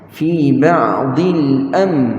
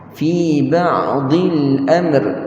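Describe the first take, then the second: First: The final r is not sounded. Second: The final r is sounded but light. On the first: "ra tak bunyi" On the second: "dia bunyikan ra tetapi dia nipiskan ra"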